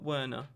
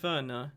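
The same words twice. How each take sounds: First: The name is said the plain English way. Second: The name is said the player's own native way. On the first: This is not how English fans say it. The speaker calls it wrong. "not Werner" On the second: This is how English fans actually say it. The speaker calls it right. "just like we say Timo Werner"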